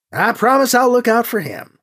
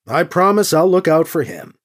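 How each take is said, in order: First: Higher, lightly voiced pilot; Gentry's promise. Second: Lightly voiced dutiful nephew; Alibi's promise. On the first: Gentry echoes the promise to Anita, lightly voiced, higher. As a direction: echo the pledge in a higher voice. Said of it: "Gentry said". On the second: Alibi promises his aunt to look out for Gentry, lightly voiced. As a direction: repeat the pledge evenly, falling at the end. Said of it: "Alibi said". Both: A narrator's reading.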